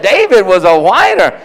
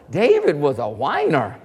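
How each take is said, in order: First: Louder, punched delivery; emphatic. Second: Low, hushed aside; quiet remark. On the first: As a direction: hit "David was a whiner" hard. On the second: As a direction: drop the voice on "David was a whiner". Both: Retold or imitated. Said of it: "She said".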